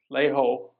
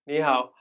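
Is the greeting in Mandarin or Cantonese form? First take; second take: Cantonese; Mandarin. First: It is said in Cantonese. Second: It is said in standard Mandarin.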